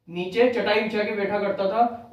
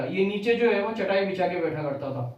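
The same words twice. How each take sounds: First: Slower, each word given weight; slow it down so the fact sinks in; slow emphatic repeat. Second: Said in the usual way. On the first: Shown as a demonstration. Teacher repeating the fact to students, slower and emphatic. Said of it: "teacher repeats fact for emphasis". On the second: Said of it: "teacher states fact then repeats".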